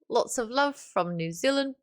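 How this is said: It is said in a put-on New Zealand accent.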